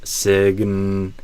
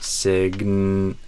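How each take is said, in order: Both takes have the same delivery.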